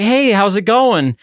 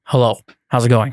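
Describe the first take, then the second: First: Higher, drawn-out friendly hello; acted upbeat greeting, pitched up. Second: Low, subdued, unreadable hello; lower-pitched, reserved mystery-man greeting; shy stranger. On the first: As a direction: greet a stranger with cheery, stretched words. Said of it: "You're like". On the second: Acted. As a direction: answer as a withdrawn, shy hitchhiker. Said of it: "He's very shy".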